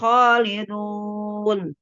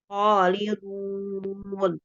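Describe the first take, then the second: First: The final vowel has spread, unrounded lips. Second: The final vowel has strongly rounded lips. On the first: The speaker calls it wrong. "Jangan khalidun" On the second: The speaker calls it right. "harus dimanyunin"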